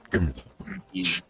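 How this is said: It is said in a menacing Claw-like villain voice.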